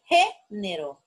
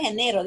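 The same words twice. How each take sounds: First: Género slowly, GÉ punched and held apart from nero; first-syllable stress. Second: Género said as geNEro, stress on NE; misplaced stress. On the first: Teacher correcting the reading, género stressed on GÉ. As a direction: hit GÉ hard in género. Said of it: "dije género". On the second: Teacher ruling out a misreading, género stressed as geNEro. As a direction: shift the stress in género to the middle syllable. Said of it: "No dije género". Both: Shown as a demonstration.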